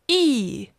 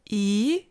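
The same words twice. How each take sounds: First: The pitch falls sharply from high. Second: The pitch rises from mid to high.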